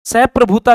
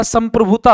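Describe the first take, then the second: First: "सप्रभुता" said without the nasal, as sa-prabhuta, a bit louder; the incorrect "सप्रभुता", no m before pra; wrong form shown. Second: "संप्रभुता" said with a clear m, sam-prabhuta; the right "संप्रभुता", nasal m pressed before pra; correct form shown. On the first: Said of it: "सप्रभुता नहीं होता". (गलत रूप: "सप्रभुता" बिना अनुस्वार के) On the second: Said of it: "संप्रभुता होता है". (सही रूप: "संप्रभुता" में म साफ़ बोलें) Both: Shown as a demonstration.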